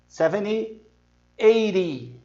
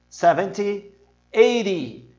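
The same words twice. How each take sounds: No difference in how they are said.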